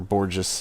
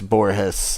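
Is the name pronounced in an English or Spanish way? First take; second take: English; Spanish. First: The name is pronounced the English way. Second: The name is pronounced the Spanish way.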